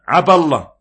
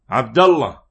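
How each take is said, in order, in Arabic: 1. يُحذف صوت الدال في عبد. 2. يُنطق صوت الدال في عبد.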